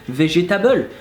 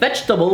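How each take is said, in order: First: All syllables carry roughly equal weight. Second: One syllable is stressed more than the others. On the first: "we would say végétable" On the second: "instead of saying vegetable"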